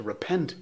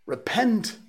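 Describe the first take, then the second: First: Said in the usual way. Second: "Repent" flung out much higher and louder; cried out. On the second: A narrator's reading. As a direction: hurl "Repent" like a prophet's cry. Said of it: "called upon them to repent".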